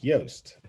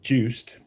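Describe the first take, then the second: First: The name begins with a Y sound. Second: The name begins with a J sound. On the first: This is the speaker's actual name. The speaker calls it right. "that's not my name because my name's Yost" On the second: This is how English speakers misread it. The speaker calls it wrong. "every English person that sees uh, my name says Juiced"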